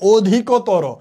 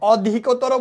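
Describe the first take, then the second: First: The word ends with an o vowel. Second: The word ends on a bare consonant. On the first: The speaker calls it right. "তুমি কি বলো, অধিকতর। এই জন্য অ আছে এখানে, কি হবে, ও হবে" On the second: The speaker calls it wrong. "অধিকতর বলো না"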